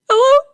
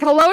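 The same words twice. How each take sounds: First: High, louder mock-crying hello; exaggerated weepy greeting, pitched way up; imitated tearful hello. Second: Said in the usual way. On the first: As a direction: answer the phone as if in tears. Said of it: "why are you crying".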